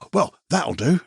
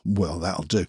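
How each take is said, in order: First: The voice stays up through the phrase. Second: The voice goes down through the phrase. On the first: It is genuinely good enough. "You don't go" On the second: It is settling for less than one's best. "you can tell your voice goes down"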